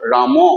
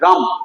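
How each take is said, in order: First: The final m is followed by a full vowel. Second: The final m is clipped with no vowel after. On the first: The speaker calls it wrong. "Not রাম" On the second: The speaker calls it right. "অর্ধেক উচ্চারণ করে আমরা বলি রাম"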